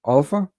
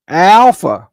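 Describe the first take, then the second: First: "Alpha" with an open ah as in father, questioning rise; proper Greek Alpha. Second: "Alpha" with a flat American a as in cat, blurted louder; mock wrong Alpha. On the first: Teaching viewers the Greek letter, correct "Alpha" with open ah. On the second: Scolding Americans who mispronounce Greek letters, loud mocking "Alpha". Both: Shown as a demonstration. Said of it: "Can't you say alpha?".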